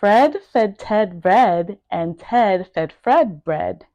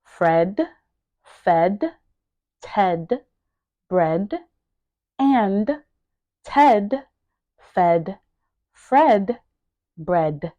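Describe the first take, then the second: First: Said in the usual way. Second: One word at a time, clearly separated. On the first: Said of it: "pronouncing each word". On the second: Shown as a demonstration. Teacher modelling each word for learners to repeat, word by word. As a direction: leave a gap after every word. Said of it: "make sure that you are pronouncing each word".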